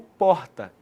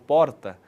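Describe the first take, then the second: First: The R passes softly through the throat. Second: The R is a quick tongue tap. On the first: It is the R of Belo Horizonte. "o som passa mais suavemente pela garganta" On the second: It is the R of the capital and of gaúchos. "um tapinha com a língua no céu da boca"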